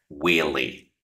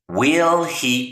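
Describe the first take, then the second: First: The words run together into one short word. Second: Each word is said fully and separately.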